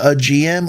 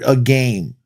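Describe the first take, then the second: First: It is spelled out as separate letters. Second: It is said as one word, "a game".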